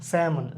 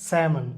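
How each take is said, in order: No difference in how they are said.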